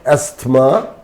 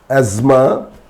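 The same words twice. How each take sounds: First: The T sound is clearly pronounced. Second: The T sound is left out. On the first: The speaker calls it wrong. "it's not asthma" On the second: The speaker calls it right. "random words with silent T"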